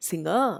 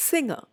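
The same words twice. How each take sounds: First: "singer" as sing-ER, last syllable drawn out; wrong second-syllable stress. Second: "Singer" as SING-er, high then falling; stress on first syllable. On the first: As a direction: shift the weight onto "er" in "singer". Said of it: "I don't say singer". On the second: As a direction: hit SING, let "er" drop in "Singer". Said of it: "stress to the first syllable". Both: Shown as a demonstration.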